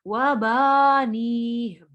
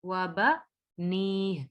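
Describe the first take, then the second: First: The vowel after the b is long. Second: The vowel after the b is short. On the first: The speaker calls it wrong. "इसको ऐसे नहीं पढ़ेंगे" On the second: The speaker calls it right. "बा को नहीं खींचेंगे"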